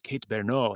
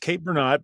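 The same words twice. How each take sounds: First: The surname is pronounced in a French style. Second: The surname is pronounced in an English style. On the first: The speaker calls it wrong. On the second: The speaker calls it right.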